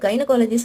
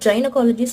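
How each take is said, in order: First: The word begins with a hard g sound. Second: The word begins with a soft j sound. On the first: "இங்கே மட்டும் நம்ம ஏன் கு சொல்றோம்" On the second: "ஜைனகாலஜி சொல்லாம"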